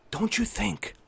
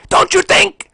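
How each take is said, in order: First: Very soft, tightly held question; hushed restraint. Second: Very high, very loud yell; explosive shout. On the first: Streamer holding back anger at Xbox boss, hushed restraint. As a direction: ask it under your breath. Hushed, before exploding on same words. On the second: Streamer snapping at Xbox boss, explosive shout. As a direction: erupt suddenly from a whisper. Explodes after whispering same words. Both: Acted.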